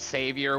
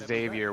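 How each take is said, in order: First: The name begins with an S sound. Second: The name begins with a Z sound. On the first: The speaker calls it wrong. "If they're telling you it's Savior with an S" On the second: The speaker calls it right. "it's supposed to be Xavier with a Z"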